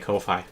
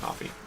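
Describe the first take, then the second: First: It rhymes with lo-fi, ending in 'fye'. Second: It sounds like the drink coffee. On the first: "see it as a alteration on lo-fi" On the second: "you could pronounce that coffee"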